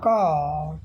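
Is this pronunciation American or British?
British. The word ends without an r sound. "अगर यही British होता"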